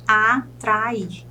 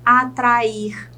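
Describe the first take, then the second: First: "atrair" broken into a, tra, ir; syllable by syllable. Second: Said in the usual way. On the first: Shown as a demonstration. Teacher counts three syllables for students, "atrair" syllable by syllable. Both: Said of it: "Eu chamo de trissílabas".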